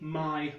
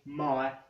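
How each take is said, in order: First: It has a standard English vowel. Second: It has a Cockney vowel. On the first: "where I would say" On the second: "a Cockney speaker would say something like"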